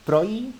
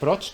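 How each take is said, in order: First: The word ends in a y sound. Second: The word ends in a dj sound. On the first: "porque la J en el norte de Europa se pronuncia como una I" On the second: "como Dodge"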